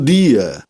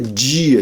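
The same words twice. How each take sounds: First: The d stays a hard d before i. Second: The d sounds like j before the i. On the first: This is the neutral radio announcer pronunciation. "não palatalizavam" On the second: This is the local Rio pronunciation. "ninguém dizia"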